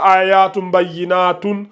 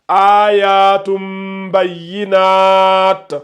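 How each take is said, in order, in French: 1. Le dernier mot se termine par une terminaison '-un' complète. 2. Le dernier mot s'arrête net, sans voyelle finale. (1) "On ne dit pas" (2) "on dit"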